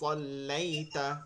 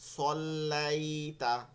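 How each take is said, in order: First: The vowel sound is read quickly and short. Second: The vowel sound is stretched out long. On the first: The speaker calls it right. "দ্রুত পড়তে হবে" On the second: The speaker calls it wrong. "এটা করবো না"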